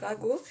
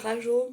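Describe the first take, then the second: First: The middle consonant is a hard g sound. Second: The middle consonant is a soft j sound. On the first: The speaker calls it right. "Ça je devrais dire Rago" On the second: The speaker calls it wrong. "moi je dis Rajo, mais il n'y a pas de E"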